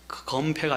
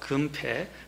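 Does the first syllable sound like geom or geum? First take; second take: geom; geum. First: The first vowel is the open 'eo' sound. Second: The first vowel is the close 'eu' sound. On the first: The speaker calls it wrong. "검패가 아니고" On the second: The speaker calls it right. "제가 이 발음을 잘해야 돼요"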